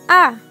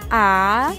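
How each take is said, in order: First: It is said with the short falling fourth tone. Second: It is said with the dipping third tone. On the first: "Bentuk keempat" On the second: "Bentuk ketiga"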